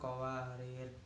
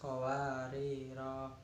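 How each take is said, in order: First: The word ends on a vowelless final consonant. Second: The word ends with a long final vowel. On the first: "pendek sukun" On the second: "Wakaf panjang"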